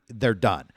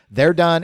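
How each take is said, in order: First: Said in the usual way. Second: They're done repeated higher and louder, "done" hit hard; emphatic repeat with "done" stressed. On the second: Shown as a demonstration. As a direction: punch "done" to drive the point home.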